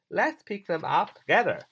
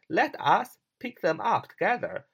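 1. Let 和 us 合并成一个音节 let's。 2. Let 和 us 分开读成两个词。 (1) "这是快点读" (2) "它实际上写成是let us"

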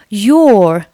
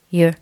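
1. 这个单词读完整形式。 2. 这个单词弱化了,读得很轻。

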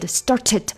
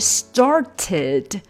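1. 中间的 t 说得太快，含糊带过。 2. 中间的 t 发得清楚干脆。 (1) "当你把这个字说得太快的时候，你就没有办法发出来一个非常干净的t 了" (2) "本来应该是started"

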